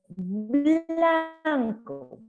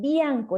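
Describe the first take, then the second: First: The word begins with a 'bla' sound. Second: The word begins with a 'bya' sound. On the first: The speaker calls it right. "es blanco" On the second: The speaker calls it wrong. "no es bianco"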